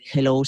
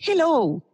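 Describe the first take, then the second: First: It is said low, flat and hard. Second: It is said higher with a lifted melody.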